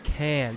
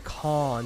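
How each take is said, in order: First: It is said with an American accent. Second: It is said with a British accent.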